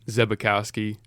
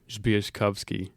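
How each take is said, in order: First: The name is said the American way. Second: The name is said the Polish way.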